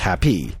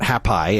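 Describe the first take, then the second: First: The final y sounds like 'ee'. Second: The final y sounds like 'eye'. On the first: The speaker calls it right. "It's happy" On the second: The speaker calls it wrong. "It's not happy"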